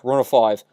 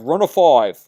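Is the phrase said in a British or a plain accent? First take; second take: plain; British. First: It is said in the speaker's usual accent. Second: It is said in a British accent.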